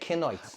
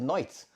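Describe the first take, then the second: First: The k at the start is pronounced. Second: The k at the start is silent. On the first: "So I had to say Knights" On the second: "you didn't know when I said Knights"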